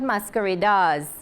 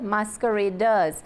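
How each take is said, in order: First: The ending sounds like 'dars'. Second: The ending sounds like 'ders'. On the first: The speaker calls it wrong. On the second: The speaker calls it right. "So it's D E R and not D A R"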